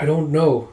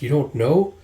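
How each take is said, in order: First: "I don't know" falling on "know"; plain answer. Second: "You don't know?" rising on "know"; echo question. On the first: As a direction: answer with "know" dropping at the end. Acted answer, echoed back as question. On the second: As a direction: query it back, lifting "know" at the end. Acted echo of the answer, questioning. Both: Acted.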